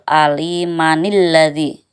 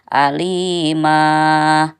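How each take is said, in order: First: The word runs straight into the next word. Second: The word ends short and the voice stops. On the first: "itu jadi dibaca wasol" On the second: "kalau mau berhenti boleh alima, berhenti"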